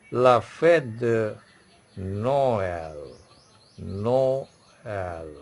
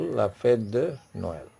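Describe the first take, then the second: First: Slow "La fête de", then "Noël" split into "no", pause, "el"; pause inside Noël. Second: Said in the usual way. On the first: Shown as a demonstration. Teacher showing how to pronounce it, "Noël" slowly broken in two. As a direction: stretch "Noël" into two held syllables with a gap. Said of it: "you pause for a second". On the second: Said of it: "But how to pronounce it?".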